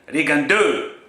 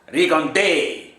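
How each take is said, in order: First: The name is pronounced the French way. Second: The name is pronounced the Spanish way. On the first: "in French" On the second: "in a Spanish way"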